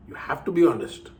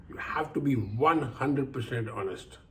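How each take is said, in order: First: Said in the usual way. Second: Slow, with weight on "one hundred percent"; stress on one hundred percent. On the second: Shown as a demonstration. Telling listeners the rule, pressing on "one hundred percent".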